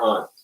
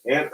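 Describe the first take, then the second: First: "aunt" with an open "ah" vowel; aunt as "ahnt". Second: "Aunt" with the vowel of "cat"; Aunt as "ant". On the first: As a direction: say "aunt" to rhyme with "font". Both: Shown as a demonstration. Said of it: "Let's do that as a vote".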